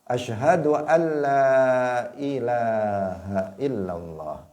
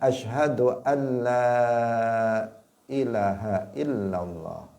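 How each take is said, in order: First: The vowel in 'ilah' is long. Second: The vowel in 'ilah' is short. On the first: The speaker calls it right. "ilah itu juga panjang" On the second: The speaker calls it wrong. "Bukan uh, dikatakan"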